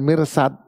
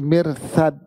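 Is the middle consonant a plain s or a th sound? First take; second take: plain s; th sound. First: The middle consonant is a plain s sound. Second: The middle consonant is a th sound. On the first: The speaker calls it wrong. "bukan pakai sin" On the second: The speaker calls it right. "pakai sa"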